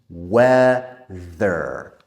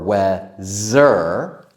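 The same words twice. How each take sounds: First: The middle consonant is a voiced th. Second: The middle consonant is not a voiced th. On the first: The speaker calls it right. "We need the, the tongue out" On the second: The speaker calls it wrong. "So we don't say weather"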